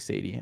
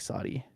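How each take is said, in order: First: The first vowel sounds like 'day'. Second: The first vowel sounds like 'saw'. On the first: "I do say Sadie" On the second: "I do not say Saudi"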